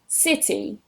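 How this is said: It is said in a southern English accent. "I'm going to say them in the southern variety"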